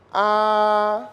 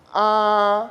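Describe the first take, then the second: Both takes have the same delivery.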